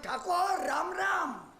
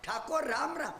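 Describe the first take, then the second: First: Satirical. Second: Said in the usual way. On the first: Retold or imitated. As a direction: hail the Thakor with sarcastic respect. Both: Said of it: "સેટાયરમાં".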